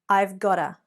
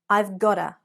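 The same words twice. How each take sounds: Both takes have the same delivery.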